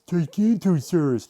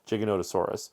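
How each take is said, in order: First: The name is said with five syllables. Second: The name is said with six syllables. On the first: The speaker calls it wrong. "People always wrongly pronounce this Gigantosaurus" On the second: The speaker calls it right.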